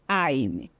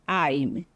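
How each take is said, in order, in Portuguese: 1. Ele é reduzido a uma única sílaba contraída. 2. Ele é reduzido a uma única sílaba contraída.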